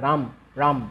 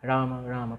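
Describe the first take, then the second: First: Each word ends sharply on the m sound. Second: Each word ends with a short vowel after m. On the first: The speaker calls it wrong. "Prabhupada বলছেন না" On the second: The speaker calls it right. "Prabhupada এইভাবে বলছেন"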